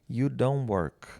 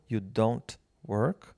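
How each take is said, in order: First: The t at the end of don't is dropped. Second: The t at the end of don't is pronounced. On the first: "você pode não falá-lo quando você fala rápido" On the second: "Esse T você pode falá-lo"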